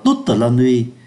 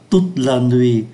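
First: The final e of toute is pronounced. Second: The final e of toute is silent. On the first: The speaker calls it wrong. "Người ta không đọc là" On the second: The speaker calls it right. "chúng ta thấy ô cuối không phát âm"

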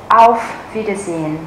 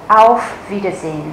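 The two takes are said the same way.

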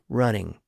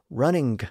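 First: The word ends without a released hard G sound. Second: The word ends with a released hard G sound. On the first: This is the newer pronunciation. "to running" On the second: This is the older pronunciation. "So the pronunciation shifted from running"

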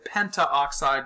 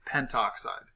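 First: The vowel before oxide is pronounced in full. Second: The vowel before oxide is dropped entirely. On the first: "you notice you sort of naturally drop the A" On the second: "goes to pentoxide"

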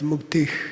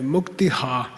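First: The word ends in a short breathy h sound. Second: The word ends with an extra full 'ha' syllable. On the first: The speaker calls it right. "rough breathing. So it's muktih" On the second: The speaker calls it wrong. "They say muktiha. ... It's a mistake"

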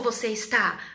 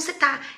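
First: Both words are pronounced fully and carefully. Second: The words are shortened and run together. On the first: The speaker calls it wrong. "A gente não fala como" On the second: The speaker calls it right. "a gente fala como"

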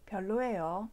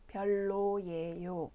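First: It is spoken at a normal speed. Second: It is spoken slowly. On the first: "표준 속도로 두번 들려드립니다" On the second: "천천히 두번 들려드립니다"

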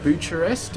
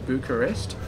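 First: It is said in an Anglicized American/Australian way. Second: It is said in a European-style way. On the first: The speaker calls it wrong. "the non-European American / Australian way of pronouncing the city. ... it just sounds so dodgy" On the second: The speaker calls it right. "I'm guessing the correct way is going to be"

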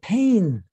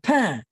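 First: It is said in a southern French accent. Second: It is said in a standard French accent. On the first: "he pronounced it pain" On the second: "I pronounced it pain"

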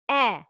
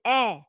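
First: The vowel is thin and light, like eh. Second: The same.

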